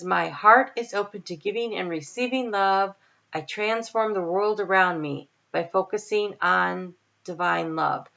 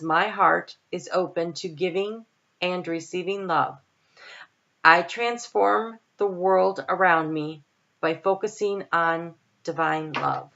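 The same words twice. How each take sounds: First: It is read at a normal pace. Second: It is read slowly and deliberately.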